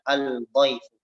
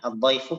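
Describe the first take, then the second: First: The L is pronounced separately before the D. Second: The L blends into the following D sound. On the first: The speaker calls it wrong. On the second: The speaker calls it right.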